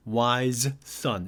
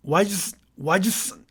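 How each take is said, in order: First: "wise son" said slowly with both s sounds apart; slow careful pronunciation. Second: "wise son" stumbling on the doubled s sound; tongue-tied mock stumble. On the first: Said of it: "아주 천천히 발음할 때는". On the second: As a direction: trip over "wise, wise son" like a tangled tongue. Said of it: "어떻게 되냐면 이렇게 되죠". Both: Shown as a demonstration.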